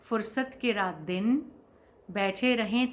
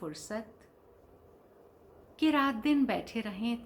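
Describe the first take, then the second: First: The pause comes after 'raat din'. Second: The pause comes after 'fursat'. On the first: The heart longs for those leisurely days and nights. "अब गुलज़ार साहब कहते हैं" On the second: The heart longs for leisure, so as to sit day and night. "फ़ुर्सत के रात दिन नहीं, फ़ुर्सत।"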